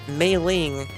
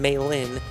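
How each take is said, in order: First: The name ends with an ng sound. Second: The name ends with a plain n sound. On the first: The speaker calls it wrong. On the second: The speaker calls it right. "I mean Mei Lin"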